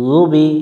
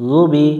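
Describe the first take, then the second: No difference in how they are said.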